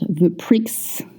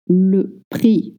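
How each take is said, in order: First: The word ends with an audible X sound. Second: The word ends without any X sound. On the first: The speaker calls it wrong. "not the prix" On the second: The speaker calls it right. "we don't pronounce the X at the end"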